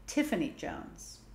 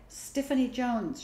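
First: Slow, careful "Tiffany Jones" with a clean T; corrected name. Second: Slow "Stiffany Jones" with an extra S at the start; mispronounced name. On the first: Older sister corrects the mispronounced name. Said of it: "Nona corrected her". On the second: Girl stumbles over the grand new name. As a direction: say "Stiffany" with a stray S before Tiffany. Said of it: "she said the first time". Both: A narrator's reading.

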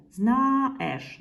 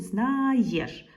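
First: "знаєш" said as "зна-еш", with no y-glide; wrong form. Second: "знаєш" said as "зна-йеш", with clear y-glide; correct form. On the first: Teacher trying the wrong letter е, drawn-out mispronunciation. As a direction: sound out "знаєш" with bare е after а. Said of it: "Нема такого". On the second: Teacher confirming the letter є, drawn-out correct pronunciation. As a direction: slowly stretch "знаєш", sounding є as ye. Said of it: "Нема такого, значить". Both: Shown as a demonstration.

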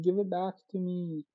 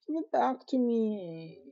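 First: Said in the usual way. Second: Higher and slow, pleading; whiny high plea. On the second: Acted. Begging the thief for the chocolate, high and slow. Repeats demand more insistently.

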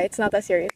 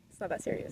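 First: Said in the usual way. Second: Breathy whispered repeat to herself. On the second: Real, not acted. Vlogger whispering to herself, holding back tears. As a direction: whisper it to calm yourself down.

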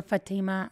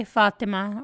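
First: Fatima with the stress on the middle syllable; alternative pronunciation of Fatima. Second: Fatima with the stress on the first syllable; first pronunciation of Fatima. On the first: Player unsure of a character's name, alternative pronunciation. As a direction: say Fatima as fa-TEE-ma. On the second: Player trying out a new character's name, first pronunciation. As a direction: say Fatima as FAT-ih-mah. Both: Shown as a demonstration. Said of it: "not sure how we say it".

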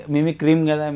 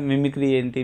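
First: "మిమిక్రీమ్" said with an extra m at the end, a bit higher; child's mispronunciation. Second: Said in the usual way. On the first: Retold or imitated. Guest recalling how he misnamed mimicry as a boy, "మిమిక్రీమ్" with added m. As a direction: imitate a boy saying "మిమిక్రీమ్" instead of mimicry. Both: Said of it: "నేను మిమిక్రీ ఏం అనేవాడిని".

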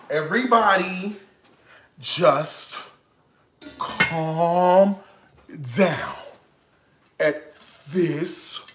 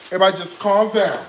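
First: Each word set apart with long pauses; slow, word by word. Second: Said in the usual way. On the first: Shown as a demonstration. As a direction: lay it out slowly, as if calming himself.

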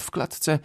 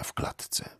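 First: Said in the usual way. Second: Dropped to a breathy whisper at the phrase end. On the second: A narrator's reading. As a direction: let the words fade into a whisper. Narrator ends the phrase in a whisper. (szept na końcu zdania)

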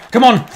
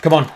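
First: Higher, louder exasperated Come on; loud annoyed Come on; frustrated shout. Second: Said in the usual way. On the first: Real, not acted. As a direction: yell it at the screen in frustration.

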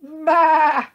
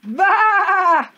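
First: High, loud, wavering baa; long storybook sheep call; sheep bleating. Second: Enormous high, long bleat; full-volume sheep-noise yell; shouted baa. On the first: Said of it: "The sheep looked at him". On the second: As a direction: blast it out to startle a bird. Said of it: "he shouted". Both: A narrator's reading.

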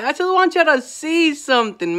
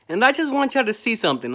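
First: Emphatic repeat leaning on "want"; stress on want. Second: Said in the usual way. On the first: Real, not acted. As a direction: press hard on "want" in "I just want y'all to see something".

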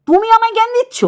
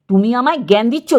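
First: Outraged high-pitched comeback; indignant high retort. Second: Said in the usual way. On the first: Real, not acted. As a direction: voice jumps high on জ্ঞান in disbelief. Indignant rebuke of a rival creator.

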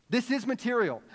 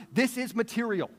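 The two takes are said the same way.

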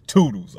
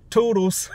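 First: Bassy goodbye with a falling end; put-on deeper voice; extra bass. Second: High, lilting imitation of a departing passenger; mock high singsong farewell; parting toodles. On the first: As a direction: answer back with a little more bass. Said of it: "I put a little extra bass". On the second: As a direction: trill a high-pitched goodbye in his voice. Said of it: "He turned around and said".

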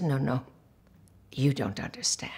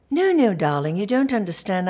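First: Low, quiet retold fury; contained rage. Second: Louder imitated English accent, brushing her off; patronizing British director's correction. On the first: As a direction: imitate holding down humiliated anger. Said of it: "I was just trembling with rage". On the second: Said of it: "he's English".

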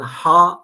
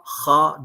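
First: "ha" with a breathed, unrasped h; plain breathy h in "ha"; soft Arabic ha. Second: "ha" with a scraped kh sound; rough back-of-throat h in "ha"; rasped Arabic kha. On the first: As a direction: say "ha" with a smooth h from the throat. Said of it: "ha dengesini". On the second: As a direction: say "ha" as a raspy kha. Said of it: "niye ha'yı ha yaptın". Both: Shown as a demonstration.

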